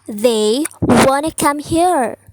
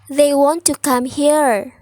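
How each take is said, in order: First: Want and to merge into one word, wanna. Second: Want and to are said as separate words.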